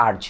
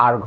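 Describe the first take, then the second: First: আর্জ ending in a soft j sound; আর্জ as arj, j at the end; wrong erj. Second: আর্গ ending in a hard g sound; আর্গ as arg, hard g at the end; erg with hard g. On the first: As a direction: say আর্জ with j, the mistaken way. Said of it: "দেখো উচ্চারণ হবে আর্জ". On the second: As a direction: say আর্গ with a clean g, not j. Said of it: "আর্গ, এটা আর্জ না". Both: Shown as a demonstration.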